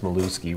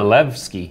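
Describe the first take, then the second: First: The middle of the name has no V sound. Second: The middle of the name has a V sound. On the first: The speaker calls it wrong. "it's not pronounced Maluski" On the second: The speaker calls it right. "So it should be Milevsky"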